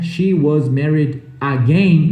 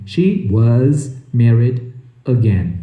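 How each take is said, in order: First: Slow, AGAIN as "AH-gain"; full open A starting AGAIN; learner's AGAIN at the end, first A wide open; wrong pronunciation. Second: Slow, low, AGAIN as "uh-GEN"; correct pronunciation. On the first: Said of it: "em vez de falar again". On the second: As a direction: WAS with Z, AGAIN with weak first vowel. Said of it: "realmente melhora a sua pronúncia". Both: Shown as a demonstration.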